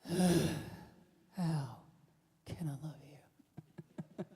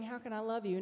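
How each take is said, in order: First: It sounds critical and exasperated. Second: It sounds warm and sincerely caring. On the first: The speaker doubts the other person deserves love. The speaker calls it wrong. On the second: The speaker genuinely wants to offer love. The speaker calls it right. "start saying"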